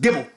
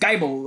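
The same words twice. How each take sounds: First: The first vowel sounds like 'ih'. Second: The first vowel sounds like 'eye'. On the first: The speaker calls it right. "It's just Gibble" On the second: The speaker calls it wrong. "like the Bible"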